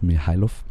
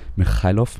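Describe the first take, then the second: First: The middle consonant is a soft German h. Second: The middle consonant is a harsh Russian-style sound. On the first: "mit deutschem H" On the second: "mit russischem R"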